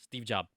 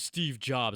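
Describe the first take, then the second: First: Jobs is said without the final S. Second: Jobs ends with an S sound. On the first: This is how immigrants say the name. "Don't don't say the S" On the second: This is the standard way to say the name. "Some people are probably like"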